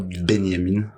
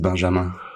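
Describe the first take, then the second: First: The middle consonant is a 'y' sound. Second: The middle consonant is a soft 'zh' sound. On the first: This form suits people whose languages read the letter differently. "appelez-moi Benyamin" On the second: This is the name as written on official papers. "Non, c'est Benjamin"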